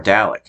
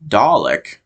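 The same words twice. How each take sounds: First: "Dalek" said DAL-ek, a as in cat; "Dalek" with a flat American a. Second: "Dalek" said TAH-lek, with a broad ah; "Dalek" the British way, broad first vowel. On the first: Fan showing his other version, American "Dalek", DAL-ek. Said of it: "back and forth ... or Dalek". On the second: Fan showing his first version, British "Dalek", TAH-lek. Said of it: "I might go back and forth when I say". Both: Shown as a demonstration.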